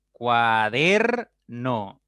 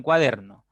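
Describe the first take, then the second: First: "Cuaderno" very slow and loud, cua - DER - no; stress on DER. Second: Said in the usual way. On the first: Shown as a demonstration. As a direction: stretch and punch the middle "der" of "Cuaderno". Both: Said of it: "La que suena más fuerte es der".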